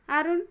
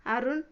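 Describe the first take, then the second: First: Raised call, louder, rising at the end. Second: Fearful call. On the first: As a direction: call his name to snap him out of it. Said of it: "ఈసారి గట్టిగా అరిచాను". (గట్టిగా పిలవడం) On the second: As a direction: say his name anxiously, unsure he'll answer. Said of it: "అన్నాను భయంగా". (భయంగా పిలుపు) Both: Acted.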